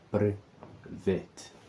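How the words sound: It is said with an English accent. "this is how you read it if we are to translate it into the English language"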